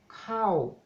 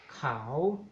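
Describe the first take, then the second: First: The pitch falls across the word. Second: The pitch rises across the word. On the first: It means rice. "en cuanto al tono decreciente" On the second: "tenemos tono creciente"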